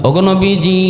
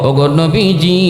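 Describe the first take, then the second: The two takes are said the same way.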